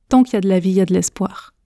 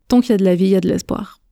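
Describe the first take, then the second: No difference in how they are said.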